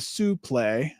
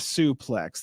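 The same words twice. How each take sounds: First: It is pronounced the French way. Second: It is pronounced the English way. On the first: The speaker calls it right. "it's actually a suplex" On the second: The speaker calls it wrong. "not a suplex"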